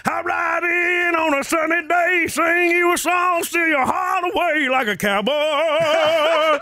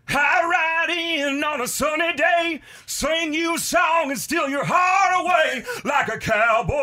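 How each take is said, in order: First: Sung high and loud, country style; sung, belt it out like on stage; loud, higher sung cowboy line; sung original. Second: Sung high and slow like a country star; sung, belt the cowboy line as the singer would; higher, slow sung country line. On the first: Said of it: "I'll sing it". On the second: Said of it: "I sing a part of a [name] song". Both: Acted.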